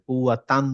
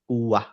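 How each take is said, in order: First: The word ends with a full tan syllable. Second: The word ends with a soft h sound. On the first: The reader carries on without stopping. The speaker calls it wrong. "কুয়া তান বললে হবে না" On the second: The reader stops here to take a breath. The speaker calls it right. "থামবো তখন ওটা হা হয়ে যাবে"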